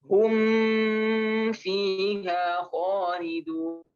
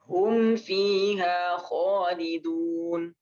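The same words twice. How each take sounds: First: The m sound is held and prolonged. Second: The m sound passes quickly without holding. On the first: The speaker calls it wrong. "Nggak perlu" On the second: The speaker calls it right. "Tapi langsung"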